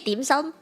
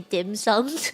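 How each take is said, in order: First: It is said with Cantonese vowels and tones. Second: It is said English-style with a hard D. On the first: This is how native speakers say it. The speaker calls it right. "in Cantonese, right? We say dim sum" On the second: This is how outsiders say it. The speaker calls it wrong. "I hate when people say dim sum"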